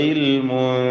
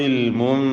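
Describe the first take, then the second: Both takes have the same delivery.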